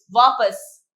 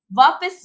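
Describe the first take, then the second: First: वापस with a short a in the second syllable, "vaapas"; correct वापस. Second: वापस with an i in the second syllable, "vaapis"; mispronounced वापस. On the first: Teacher correcting children, वापस as "vaa-pas". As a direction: keep the second vowel of वापस an अ. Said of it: "वापस होता है". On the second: Teacher showing children the wrong form, वापस as "vaa-pis". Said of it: "वापस नहीं". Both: Shown as a demonstration.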